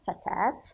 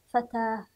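First: The word ends with a t sound. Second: The word ends with an h sound. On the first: "إما تاء" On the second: "أو هاء"

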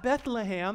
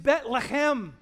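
First: It is said with a plain English pronunciation. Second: It is said with a rough sound from the throat. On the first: The speaker calls it wrong. "It's not Bethlehem. That's so English" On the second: The speaker calls it right. "You got to get it coming out your throat"

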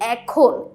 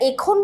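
First: The first vowel is an open ae sound. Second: The first vowel is a closed e sound. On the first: The speaker calls it right. "এ এর মতো উচ্চারণ করছি।" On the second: The speaker calls it wrong. "একে কি আমরা এর মতো উচ্চারণ করছি? না"

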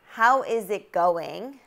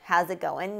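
First: Each word is said fully and separately. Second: The words are contracted and linked together.

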